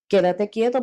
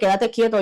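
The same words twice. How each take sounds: First: It is said in a calm, gentle tone. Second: It is said in a harsh, impatient tone. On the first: The speaker is trying to help the person. "Yo puedo decirle a una persona" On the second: The speaker is ordering the person impatiently. "Pues entonces ya el tono de voz cambia"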